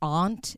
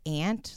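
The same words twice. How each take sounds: First: It is said with a Boston pronunciation. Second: It is said with a non-Boston pronunciation. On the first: "one of those Boston things, like how they say aunt" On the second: "instead of aunt"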